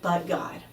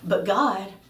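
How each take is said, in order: First: It sounds like a flat, final statement. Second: It sounds like a puzzled question.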